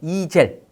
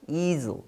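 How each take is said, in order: First: It is said Korean-style, like 'ee-jel'. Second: It is said English-style, like 'ee-zl'. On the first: This is how Korean speakers usually read it. "우린 보통 어떻게 읽어요?" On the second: This is how the test audio read it. "근데 여기서 어떻게 읽었어?"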